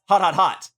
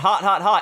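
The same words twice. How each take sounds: First: The words run together, ending with an exclamation. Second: The words are separated by pauses, said flatly. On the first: The speaker calls it right. "there's a hyphen in the first one, then an exclamation point on the last one" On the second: The speaker calls it wrong. "It's not"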